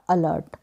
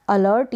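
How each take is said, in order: First: अलर्ट without an audible r; r dropped. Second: अलर्ट with an audible r; r pronounced. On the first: Teacher repeating both readings, r dropped in अलर्ट. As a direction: keep the r silent in अलर्ट. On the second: Teacher repeating both readings, r pronounced in अलर्ट. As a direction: sound the r before the final t in अलर्ट. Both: Shown as a demonstration. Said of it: "दोनों ही pronunciation सही है".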